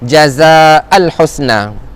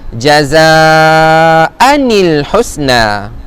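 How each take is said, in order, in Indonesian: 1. Bunyi 'n' penyambung tidak diucapkan. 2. Bunyi 'n' penyambung menghubungkan kedua kata. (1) "mereka akan sebut" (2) "Cara bacaan dia adalah"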